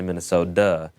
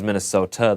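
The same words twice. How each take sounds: First: The t sound is softened toward a d. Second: The t sound is crisp and fully pronounced. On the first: The speaker calls it right. "they say Minnesota" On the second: The speaker calls it wrong. "no one says Minnesota"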